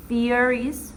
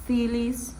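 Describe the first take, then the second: First: Said in the usual way. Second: "theories" said with an L in place of the R. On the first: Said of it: "the girl pronounced". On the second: Shown as a demonstration. Student imitating the Japanese speaker, "theories" with L for R. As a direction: swap the R in "theories" for an L. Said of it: "the R sound for the L sound".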